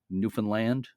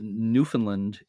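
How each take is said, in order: First: The last syllable is stressed. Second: The last syllable is not stressed. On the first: The speaker calls it right. "put the accent on the last syllable" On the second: The speaker calls it wrong. "Newfoundland is wrong"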